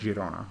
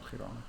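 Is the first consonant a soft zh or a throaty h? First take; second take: soft zh; throaty h. First: The first sound is a soft zh. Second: The first sound is a throaty h. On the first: The speaker calls it right. "French J" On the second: The speaker calls it wrong. "not Girona"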